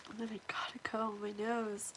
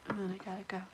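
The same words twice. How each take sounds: First: Fast breathy whisper. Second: Soft, low murmur; quiet voice. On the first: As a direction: whisper so no one hears. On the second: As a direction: say it softly under your breath. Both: Real, not acted. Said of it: "I have to make it quiet".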